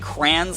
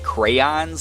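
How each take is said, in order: First: The word is shortened, not following its spelling. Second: The word is said in full, following its spelling. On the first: This is how people in one region say it. "I say crayons like that" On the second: This is how people in many other places say it. "like the whole like spelling of the word"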